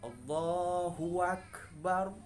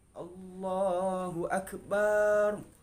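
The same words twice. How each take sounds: First: An extra w sound is added to the phrase. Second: The vowel after b is lengthened. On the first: "Kita menambahkan huruf waw di sini, sudah beda artinya" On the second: "Kita menambahkan alif setelah ba, itu enggak boleh"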